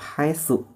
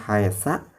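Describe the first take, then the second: First: The word ends with a u vowel. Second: The word ends with an a vowel. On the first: The speaker calls it right. "dibacanya harus tetap haitsu" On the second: The speaker calls it wrong. "Jangan dibaca haitsa"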